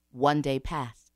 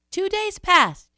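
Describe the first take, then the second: First: Said in the usual way. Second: High, loud, drawn-out; raised emphasis. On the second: A narrator's reading. Storyteller counts sunless days, high and emphatic. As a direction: lift it way up and stretch it.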